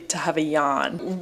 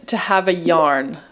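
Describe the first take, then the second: First: It is said in an Australian accent. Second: It is said in an American accent. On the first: "I say it in an Australian accent" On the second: "my American accent makes it sound a little bit weird"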